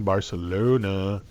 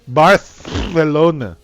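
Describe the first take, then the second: First: The c is said as an s sound. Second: The c is said as a th sound.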